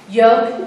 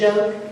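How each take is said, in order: First: The word begins with a y sound. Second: The word begins with a j sound. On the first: A non-native speaker is mispronouncing the word. The speaker calls it wrong. "yoke instead of joke" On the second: This is the standard form of the word. The speaker calls it right. "instead of joke"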